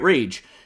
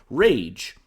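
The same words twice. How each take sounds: First: It is said in an angry tone. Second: It is said in a happy, excited tone. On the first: The speaker calls it right. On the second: The speaker calls it wrong.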